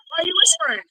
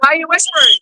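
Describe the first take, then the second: First: Quiet, stress on you; hushed. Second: Said in the usual way. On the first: Real, not acted.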